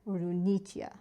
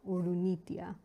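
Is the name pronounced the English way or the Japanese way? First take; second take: Japanese; Japanese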